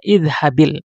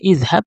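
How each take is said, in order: First: The word ends with an added i vowel. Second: The word ends on the consonant b. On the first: "sukun pertama diberi baris kasur, maka kita baca idhabil" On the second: "asal katanya idhab"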